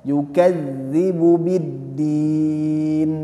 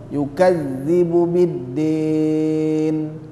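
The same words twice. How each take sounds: Both takes have the same delivery.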